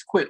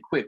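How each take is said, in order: First: "quit" ending in a clear T; correct pronunciation. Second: "quit" said as "quick", ending in K; common mispronunciation. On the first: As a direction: say "quit" as in "I quit this game". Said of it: "pronunciation and spelling. It's quit". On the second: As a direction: say "quit" like the word for running fast, "quick". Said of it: "a lot of people say quit, like running fast". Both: Shown as a demonstration.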